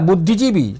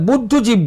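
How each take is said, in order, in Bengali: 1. শব্দটি লম্বা 'ee' স্বরে শেষ হয়। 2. শব্দটি খালি ব্যঞ্জনবর্ণে শেষ হয়। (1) "একটা কথা ব্যবহার করেন না" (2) "কথাটা মানে বুদ্ধজীব বলে ফেলি"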